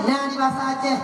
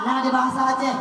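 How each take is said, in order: Both takes have the same delivery.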